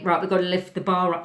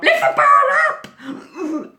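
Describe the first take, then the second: First: Said in the usual way. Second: Much higher, louder, slow shriek; horrified shout. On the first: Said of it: "Dylan D said to me". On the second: Retold or imitated. Terrified skier screaming back at the boy, horrified shout. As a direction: shriek it in terror.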